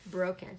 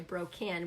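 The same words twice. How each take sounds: First: The second vowel is reduced to a schwa. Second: The second vowel is pronounced fully and clearly. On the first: The speaker calls it right. "it's just going to make an uh sound" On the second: The speaker calls it wrong. "So you wouldn't say broken"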